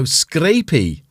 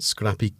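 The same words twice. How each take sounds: First: "scrapey" drawn out with a long a; long-a pronunciation. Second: "scrappy" said with a short a; short-a pronunciation. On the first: Realising how the word reads, long-a "scrapey". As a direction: stretch "scrapey", like scrape plus ee. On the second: Reading out a word from the screen, short-a "scrappy". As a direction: say "scrappy" to rhyme with happy. Misreads word, then corrects it. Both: Real, not acted.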